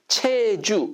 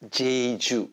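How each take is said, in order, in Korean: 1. 이 이름은 ch 소리로 시작해요. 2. 이 이름은 j 소리로 시작해요. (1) "씨에이치, 체주 이렇게 발음하는 것보다도" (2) "제이유를 갖다가 외국 사람이 발음하면 어떻게 발음해요? 제주 이렇게 발음해요"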